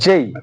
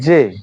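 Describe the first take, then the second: First: The letter ends with a gliding 'ee' sound. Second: The letter ends on a plain short 'e' vowel. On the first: The speaker calls it right. "From today it will be জেই" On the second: The speaker calls it wrong. "আগে এর উচ্চারণ করতাম জে"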